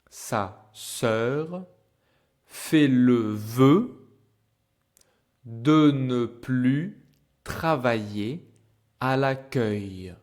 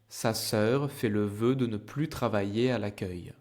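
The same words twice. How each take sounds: First: The sentence is spoken slowly. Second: The sentence is spoken at normal speed. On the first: "I will speak slow in the beginning" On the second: "Normal speed for you to practice"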